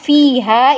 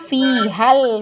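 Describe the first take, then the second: First: The final vowel is held long. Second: The final vowel is short, joined to the next word. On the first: The word stands alone. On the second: The word is connected to the following word.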